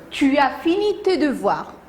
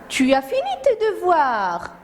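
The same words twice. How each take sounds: First: It is said as a plain statement. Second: It is said as an exclamation.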